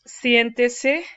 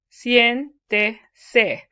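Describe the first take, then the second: First: Said in the usual way. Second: "Siéntese" broken into sien, te, se, SIEN stressed; loud, separated syllables of "Siéntese", stress on the first; syllable-by-syllable stress demo. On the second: Shown as a demonstration. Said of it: "So it's one, two, third from the last syllable".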